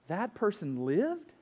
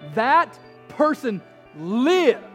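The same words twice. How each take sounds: First: It is said with a questioning rise at the end. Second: It is said with excited, exclaiming emphasis.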